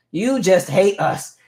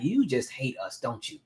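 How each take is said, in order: First: Slow, louder, higher drawn-out accusation; exaggerated complaint. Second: Under-breath mock complaint, softer; quiet grumble. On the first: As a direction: stretch every word like a fed-up kid. Repeating complaint at mean teacher. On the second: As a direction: mutter it as a kid who can't speak up. Muttering at mean chalk teacher.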